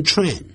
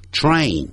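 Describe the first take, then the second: First: Train said with a short E like "tren"; the mistaken tren vowel in train; wrong train. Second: Train with the final N clearly sounded; nasal ending out. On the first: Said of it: "不要念成train". (错误读法，读成tren) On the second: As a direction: let the N of train ring out. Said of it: "这个鼻音要出来". (train的鼻音n要发出来) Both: Shown as a demonstration.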